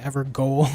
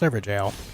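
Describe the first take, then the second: First: The word ends with a 'goal' sound. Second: The word ends with a 'jail' sound. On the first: The speaker calls it wrong. "I always said Evergoal when I first played" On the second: The speaker calls it right. "I learned that it's pronounced Everjail"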